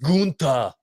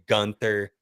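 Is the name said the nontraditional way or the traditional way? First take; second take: traditional; nontraditional. First: The name is said the traditional way. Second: The name is said the nontraditional way. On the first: The speaker calls it right. "You gotta call him by his real name. It's Gunther" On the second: The speaker calls it wrong. "I oppose those who say Gunther, much like Randy Orton does"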